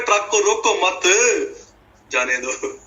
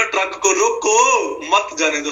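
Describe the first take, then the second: First: Attach मत to रोको, then pause before जाने दो; high रोको मत, then जाने दो dropped after a gap. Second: Raised रोको, break, then मत जाने दो together; pause after रोको. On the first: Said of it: "वचन इसकी समझ भी ऐसे लगती कईयों". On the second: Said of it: "ऐसे हो रहा है". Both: Acted.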